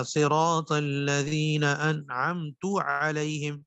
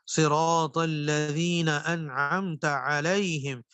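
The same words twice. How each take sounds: First: Slow recitation with انعمت ending in پیش, انعمتُ; change the vowel on تا to پیش; wrong vowel. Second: Slow Quranic recitation, انعمت with زبر on تا; correct recitation. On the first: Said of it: "اس کی جگہ کیا پڑھ دیا". (انعمتُ غلط پیش کے ساتھ) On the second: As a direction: recite it slowly and properly. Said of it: "انعمت کی جگہ انعمت". (صحیح تلاوت، انعمت زبر کے ساتھ) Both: Shown as a demonstration.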